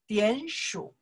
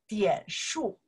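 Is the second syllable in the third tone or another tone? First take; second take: third tone; another tone. First: The second syllable is in the third tone. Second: The second syllable is in a different tone. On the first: It means to count. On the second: It means points.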